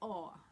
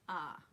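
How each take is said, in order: First: The vowel is rounded, New York style. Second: The vowel is wide, Midwest style.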